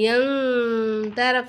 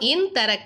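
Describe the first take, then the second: First: The n is held with a nasal hum. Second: The n is short, without a nasal hum. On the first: The speaker calls it right. "சொல்லிட்டு குன்னா செய்யணும்" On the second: The speaker calls it wrong. "சொல்லாமல்"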